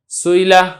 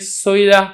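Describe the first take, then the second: First: The hamza is softened toward a y sound. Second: The hamza is softened toward a w sound. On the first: "सुईला इसको कहा जाएगा बैन बैन करीब" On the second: "सूला और सुईला इन दोनों के दरमियान पढ़ें सुईला, तो इसको कहा जाएगा बैन बैन बईद"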